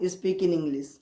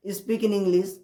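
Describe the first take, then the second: No difference in how they are said.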